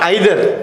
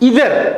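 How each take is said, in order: First: The word begins with an 'eye' sound. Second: The word begins with an 'ee' sound. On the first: The speaker calls it wrong. "Exact pronunciation of ఐదర్ ఈజ్ not ఐదర్" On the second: The speaker calls it right. "It ఈస్ ఇదర్"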